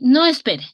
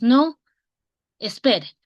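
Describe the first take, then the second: First: The words run together without a pause. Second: There is a short pause after 'no'. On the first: Don't wait, keep going ahead. "que puede seguir adelante" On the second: No, stop and wait. "que le estamos diciendo que haga una pausa"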